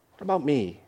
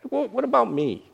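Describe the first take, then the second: First: Quiet sulk. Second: High mock-hurt whine; hurt complaint. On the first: Retold or imitated. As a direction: let the complaint sink to a mumble. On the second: Unthanked host sulking, in a high mock-hurt voice. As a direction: sulk at being overlooked. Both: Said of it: "that's kinda how we feel".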